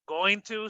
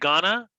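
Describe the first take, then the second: First: Both words are said fully and separately. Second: The words blend into a short reduced form. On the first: "going to sounds like gonna" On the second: "sounds like gonna"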